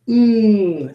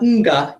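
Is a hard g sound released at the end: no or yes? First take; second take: no; yes. First: The nasal ends with no g sound. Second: A hard g sound follows the nasal. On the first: The speaker calls it right. "it's ng" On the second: The speaker calls it wrong. "It's not nga"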